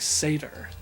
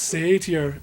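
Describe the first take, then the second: First: The word is said in a standard accent. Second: The word is said in a Scottish-style accent. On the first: This is the actual pronunciation. The speaker calls it right. "I never knew that it was actually satyr" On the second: This is how a character in the game says it. The speaker calls it wrong. "I always used to think that it was actually pronounced satyr, like he says it"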